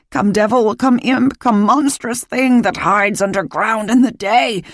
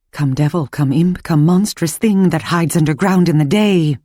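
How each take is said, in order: First: High, eerie sung incantation; eerie witch chant. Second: Sung chant. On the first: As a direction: chant it like a witch casting a spell. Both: Acted. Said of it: "Mercy sang".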